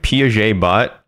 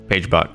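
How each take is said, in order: First: The name is said like Piaget, two syllables. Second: The name is said like page, one syllable. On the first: The speaker calls it wrong. "I don't know how to pronounce your username" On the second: The speaker calls it right. "You can pronounce it like page in a book"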